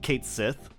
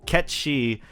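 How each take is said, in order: First: The name sounds like two words, Kate Sith. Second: The name sounds like one word, Ketchi. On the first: The name is read the way it is spelled. "which is spelled" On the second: The name is said the way its original language says it. "Ketchi is how you pronounce this character's name"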